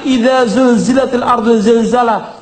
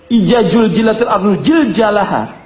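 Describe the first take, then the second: First: The z sounds are pronounced as z. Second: The z sounds are pronounced as j. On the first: The speaker calls it right. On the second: The speaker calls it wrong.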